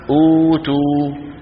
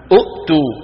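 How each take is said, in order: First: أوتوا slowly with a long held "uu"; hamza turned long. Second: أؤتوا with a glottal catch after the short "u"; two hamzas. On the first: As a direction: stretch the first vowel of أوتوا, no catch. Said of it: "شو بيعملوها". (أوتوا بمد الواو) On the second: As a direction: cut the first vowel of أؤتوا short. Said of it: "العرب لا تقول أؤ". (أؤتوا بهمزة ساكنة محققة) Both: Shown as a demonstration.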